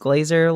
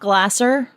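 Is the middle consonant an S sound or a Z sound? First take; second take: Z sound; S sound. First: The middle consonant is a buzzing Z sound. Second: The middle consonant is a hissing S sound. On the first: The speaker calls it right. "it is Glazer like it has a Z" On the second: The speaker calls it wrong. "most of the time people assume it is Glasser because it is an S"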